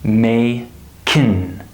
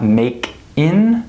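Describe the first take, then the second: First: "may kin", K moved onto the vowel; syllables resplit as "may kin"; linked. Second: "make in" as two separate words; disconnected "make in", no linking; unlinked. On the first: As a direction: say "may", then start "kin" with the K of "make". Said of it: "We carry the consonant to the next vowel". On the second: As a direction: close "make" on its K, then start "in" afresh. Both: Shown as a demonstration.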